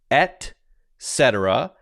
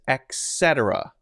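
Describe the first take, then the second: First: The first word has a t sound, like 'et'. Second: The first word has a k sound, like 'ek'. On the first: The speaker calls it right. "the correct pronunciation" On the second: The speaker calls it wrong. "it's often pronounced with an X"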